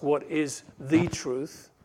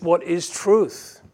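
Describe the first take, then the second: First: Said in the usual way. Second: "truth" louder, on its own; stress on truth. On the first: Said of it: "Notice he doesn't ask". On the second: Shown as a demonstration. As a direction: land on "truth" as the whole question. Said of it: "but just".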